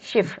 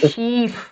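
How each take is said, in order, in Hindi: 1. स्वर छोटा बोला जाता है। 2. स्वर लंबा बोला जाता है। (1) "छोटी आती है। जैसे शिफ" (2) "ऐसे नहीं बोलूंगी"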